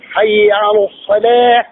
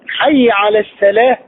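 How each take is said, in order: First: Salah begins with a heavy, emphatic s sound. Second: Salah begins with a light, plain s sound. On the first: The speaker calls it right. "تقول حي على الصلاة" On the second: The speaker calls it wrong. "إن لم تقم بتفخيمه لانقلب إلى سين"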